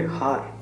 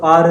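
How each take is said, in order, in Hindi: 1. यह शब्द साफ़ h की ध्वनि से शुरू होता है। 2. यह शब्द स्वर से शुरू होता है, h की ध्वनि नहीं है। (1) "अगर आप इसको कहोगे हार" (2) "वो आर बोलेंगे उसको"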